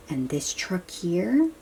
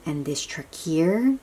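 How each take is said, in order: Both takes have the same delivery.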